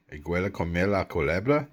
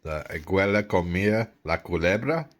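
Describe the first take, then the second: First: Same sentence run together faster; confident second read, faster; fluent repeat. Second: Sounded out word by word; first careful try at the sentence; careful reading. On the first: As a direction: say it again smoothly and quick. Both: Shown as a demonstration.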